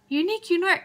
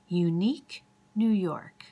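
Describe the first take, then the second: First: The phrase is said quickly, in rapid repetition. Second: The phrase is said slowly and carefully. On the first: "if you try and say it faster and faster" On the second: "Probably pretty easy to say slowly"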